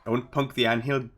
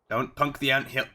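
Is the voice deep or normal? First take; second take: deep; normal. First: It is said in a deeper put-on voice. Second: It is said in a normal speaking voice.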